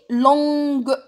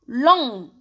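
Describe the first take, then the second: First: LONGUE held loud with a hard G release; sounded final G. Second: LONG held, ending on the nasal vowel; silent final G. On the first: Teacher showing the feminine, LONGUE with hard G pronounced. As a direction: stretch LONGUE and finish on a hard G. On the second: Teacher showing the third adjective, LONG with a silent G. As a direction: say LONG with no G sound. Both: Shown as a demonstration. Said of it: "تاني ما رانيش ننطقه".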